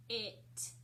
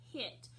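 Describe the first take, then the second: First: "H-it" split into a puffed h, then it; sounded out. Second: Said in the usual way. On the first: Shown as a demonstration. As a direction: break "H-it" after the first sound, with a gap. Teacher breaks word into sounds.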